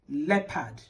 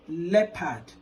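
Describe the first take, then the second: First: The first vowel is a short 'e' sound. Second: The same.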